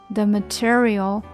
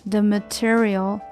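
No difference in how they are said.

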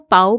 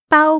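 First: The pitch rises from mid to high. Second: The pitch stays high and level. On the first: "全部都是不一样的意思" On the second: "中文有四声"

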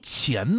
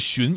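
First: The word starts with a soft 'ch'-like sound. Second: The word starts with a soft 'sh'-like sound. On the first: This is the older, originally correct reading. The speaker calls it right. "应该读钱" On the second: This is the reading commonly used today. The speaker calls it wrong. "之前这个字儿根本就不念荨"

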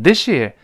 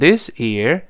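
First: It is said fast with s turning into sh. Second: It is said slowly with a clear s sound. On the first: "在长速跟读的时候呢我们就把它连在一块发生了一个发音的变化" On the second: "在慢速跟读的时候呢是读成this year"

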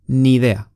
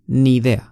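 First: The two words are linked into one. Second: The same.

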